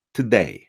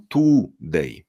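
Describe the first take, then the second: First: Schwa in first syllable of "today"; weak, barely there first vowel in "today"; native reduced today. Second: Over-pronounced "today", full oo vowel; Polish-accented today. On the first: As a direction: say "today" as t'day, no U. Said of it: "ale tam nie ma U". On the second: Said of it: "Polacy mówią". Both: Shown as a demonstration.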